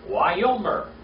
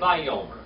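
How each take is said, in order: First: The word begins with a W sound. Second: The word begins with a V sound. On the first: This is the older, biblical way of saying it. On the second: This is how modern speakers say it.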